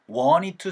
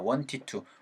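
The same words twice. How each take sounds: First: The t after the n is dropped. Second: The t is pronounced and the d is clipped. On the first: "T 사운드가 많이 없어진다" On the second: "D로 끝난 친구들은 웬만하면 디귿 받침으로 끝내주라고"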